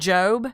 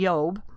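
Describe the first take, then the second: First: The name has its usual English pronunciation. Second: The name has a Hebrew pronunciation.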